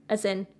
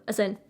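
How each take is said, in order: The two takes are said the same way.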